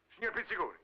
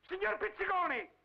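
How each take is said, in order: First: Said in the usual way. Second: Calling out. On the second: Acted. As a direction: shout the name into the dead phone. Caller hangs up on him.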